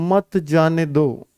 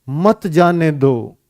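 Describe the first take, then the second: Both takes have the same delivery.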